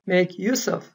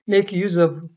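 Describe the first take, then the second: First: The s in use is voiceless, like s. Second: The s in use is voiced, like z. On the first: The speaker calls it right. "이때 무성음 이렇게 발음이 돼야 됩니다" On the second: The speaker calls it wrong. "대부분 한국 사람들이 이거 그냥 make use of"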